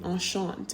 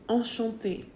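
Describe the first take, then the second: First: The word ends without a final 'ay' vowel. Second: The word ends with a final 'ay' vowel. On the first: "Without it, you'd probably say enchant" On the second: "it gives it that A sound"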